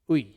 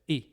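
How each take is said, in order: First: The vowel sounds like 'wee' in sweet. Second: The vowel sounds like 'ee' in spit. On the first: The speaker calls it wrong. "For classical Raspbian, it's like uh, uh, sweet" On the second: The speaker calls it right. "Koine modern? ... like the I in spit"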